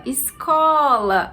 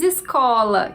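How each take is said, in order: First: Very slow "Escola", holding the CO; stressed CO. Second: Said in the usual way. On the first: Shown as a demonstration. Teacher calls the word to find its tonic syllable, stretched stress. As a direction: call out "Escola" with a long, drawn-out CO. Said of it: "A sílaba có é a sílaba mais forte".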